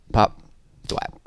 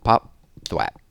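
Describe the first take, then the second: No difference in how they are said.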